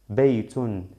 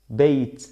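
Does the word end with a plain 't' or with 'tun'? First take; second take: tun; plain t. First: The word ends with a full 'tun' syllable. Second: The word ends with a bare 't' sound. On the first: "aquí voy a pronunciar doble, doble damma" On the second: "Pues aquí suena t, t, como si lleva un sukun"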